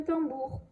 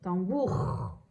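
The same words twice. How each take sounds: First: Said in the usual way. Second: "Tambour" lower, ending on a long scraped R; long final R. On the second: Shown as a demonstration. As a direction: hold the R at the end of "Tambour". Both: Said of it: "j'entends bien le R".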